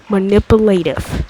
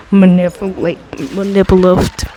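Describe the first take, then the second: First: "manipulative" sounded out syllable by syllable, ma-nip-u-la-tive, ending in a clear v; careful pronunciation. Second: Manipulative said as "manipulift", the ending garbled and cut short; stumbling pronunciation. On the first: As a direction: say every syllable of "manipulative" deliberately. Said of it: "I think that was close enough". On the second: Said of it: "I can't remember how to say this word". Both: Real, not acted.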